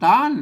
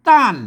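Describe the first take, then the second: First: It is said with the special tho tone. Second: It is said with the ordinary tho tone. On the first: "ต้านเสียงโทพิเศษ" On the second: "ใส่ไม่โทแล้วก็ต้าน"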